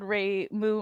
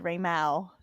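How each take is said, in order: First: The second syllable rhymes with 'moo'. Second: The second syllable rhymes with 'cow'. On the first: This is how the other person said it. "I'm glad that you said Ray Moo out loud" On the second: This is how the speaker would have guessed it. "I would have said Ray Mao"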